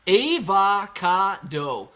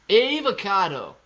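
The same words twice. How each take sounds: First: "Avocado" stretched very slowly and louder, AY-vo-KAH-do; drawn-out avocado. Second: "Avocado" slow and louder, EV-uh-KAH-toe; drawn-out avocado. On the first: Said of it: "Say it like bro". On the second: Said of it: "What is wrong with avocado?". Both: Shown as a demonstration.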